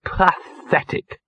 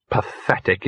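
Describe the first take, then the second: First: Drawn-out, high disgusted misery; miserable. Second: Said in the usual way. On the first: A narrator's reading. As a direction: drag the word out miserably. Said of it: "said Gaspode miserably".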